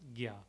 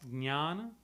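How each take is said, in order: First: The word begins with a hard g and y sound. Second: The word begins with a j and n sound. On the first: This is the North Indian Hindi pronunciation. "In North India, typical Hindi influenced region, it is G Y, Gya. It is pronounced as Gya" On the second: This is the Sanskrit pronunciation. "Sanskrit, we would pronounce it as Jnana"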